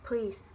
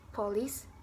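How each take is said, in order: First: The first syllable's vowel is dropped entirely. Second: The first syllable keeps its weak vowel.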